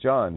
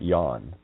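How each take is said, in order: First: The name begins with a J sound. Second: The name begins with a Y sound.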